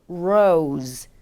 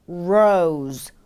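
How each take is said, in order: No difference in how they are said.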